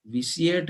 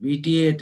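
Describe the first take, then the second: First: "vitiate" with an s sound, vi-see-ate; उच्चारण का विकल्प. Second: "vitiate" with a hard t, vi-tee-ate; दूसरा उच्चारण. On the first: ("vitiate" को "विसिएट" बोलें) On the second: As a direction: say "vitiate" with a clear t in the middle. ("vitiate" को "विटिएट" बोलें) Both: Shown as a demonstration. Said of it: "vitiate है या".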